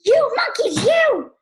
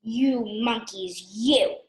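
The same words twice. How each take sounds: First: Very high, loud storybook shout; furious shout. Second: Slow, restrained telling-off; mild scolding. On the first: Very angry peddler shouts at the monkeys, furious shout. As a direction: yell it in high-pitched outrage. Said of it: "He stomped both feet and shouted". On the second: Peddler first speaks to the monkeys, mildly scolding. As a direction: scold slowly without raising your voice. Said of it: "shaking his finger at them". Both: A narrator's reading.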